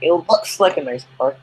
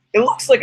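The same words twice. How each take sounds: First: Said in the usual way. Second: The voice cracks partway through; a sudden crack in the voice. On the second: Real, not acted. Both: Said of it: "That was quite a voice crack".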